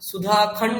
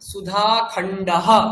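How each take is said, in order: First: The word ends without a final breathy echo. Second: The word ends with a final breathy 'ha' echo. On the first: The speaker calls it wrong. "সুধাখণ্ড নয়" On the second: The speaker calls it right.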